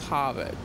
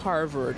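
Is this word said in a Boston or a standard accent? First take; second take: Boston; standard. First: It is said in a Boston accent. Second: It is said in a standard American accent. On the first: "the A's sound a little different and the R's are a little different" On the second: "Instead of saying Harvard"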